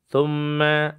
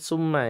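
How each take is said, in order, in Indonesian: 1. Kata itu diawali bunyi th yang lembut. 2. Kata itu diawali bunyi s yang mendesis. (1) "Maka di situ ada thumma" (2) "jangan baca dengan keadaan summa ya. Jangan ada mendesisnya"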